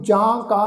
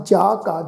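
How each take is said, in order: First: ਜਾਂ ਕਾ with a nasal first vowel; wrong nasalised pronunciation. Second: ਜਾ ਕਾ with no nasal on either vowel; correct oral pronunciation. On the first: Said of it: "ਨਹੀਂ ਪਾਠ ਉਚਾਰਨ ਕਰਨਾ". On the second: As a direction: say ਜਾ ਕਾ with a clean open "jaa". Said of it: "ਇੱਥੇ ਪਾਠ ਹੈ ਜੀ". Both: Shown as a demonstration.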